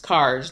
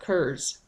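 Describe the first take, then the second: First: The vowel sounds like the one in 'car'. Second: The vowel sounds like the one in 'cur'. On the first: The speaker calls it right. "the Scotch-Irish pronunciation is Cars" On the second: The speaker calls it wrong. "not Curs"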